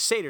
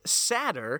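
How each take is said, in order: First: The word is said the American way. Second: The word is said the British way. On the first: "more of the American pronunciation is satyr" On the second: "the British pronunciation of it is satyr"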